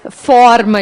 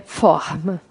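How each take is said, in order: First: It is said in a Rio Grande do Sul accent. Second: It is said in a Rio de Janeiro accent. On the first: The speaker calls it wrong. "não é forma" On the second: The speaker calls it right. "Não, é forma"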